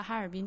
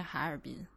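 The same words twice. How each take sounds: First: Said in the usual way. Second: 哈尔滨 read hǎ'ěrbīn, with low dipping 哈; altered tone. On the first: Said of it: "岂不是应该念哈尔滨". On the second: Shown as a demonstration. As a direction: say 哈尔滨 with a third-tone hǎ. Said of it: "应该念哈尔滨".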